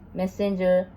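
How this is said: It is said with English pronunciation. "the English is"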